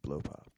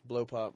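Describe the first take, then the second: First: It is said slowly in a seductive voice. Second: It is said plainly at normal speed.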